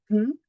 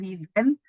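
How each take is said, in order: First: It is said with no added vowel sound. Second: It is said with an added vowel sound. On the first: The speaker calls it right. "sin la E" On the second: The speaker calls it wrong.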